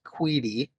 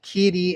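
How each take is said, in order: First: The name starts with a KW sound. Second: The name starts with a plain K sound. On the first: "I've heard it pronounced Queedy" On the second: "I've heard it pronounced Keedy"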